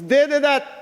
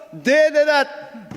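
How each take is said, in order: First: Said in the usual way. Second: THEY drawn out slowly and hammered, each word spaced; slow emphatic stress. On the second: Acted. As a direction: lean hard on They, slow and deliberate. Repeated charge against opponents.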